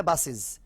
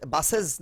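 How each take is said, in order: First: "বাসেস" said "bas-siz"; SIZ ending. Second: First "বাসেস" with a full E, "bas-sez"; SES ending. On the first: Teacher giving the spoken form, "siz" on "বাসেস". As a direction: use a short I in the last syllable of "বাসেস". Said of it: "সেজগুলা সিজ হবে". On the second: Teacher showing the wrong form, "sez" on "বাসেস". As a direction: sound the E at the end of "বাসেস". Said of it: "বাসেস না হয় বাসেস". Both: Shown as a demonstration.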